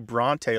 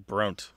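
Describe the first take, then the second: First: The final vowel is pronounced. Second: The final vowel is silent. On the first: The speaker calls it right. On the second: The speaker calls it wrong.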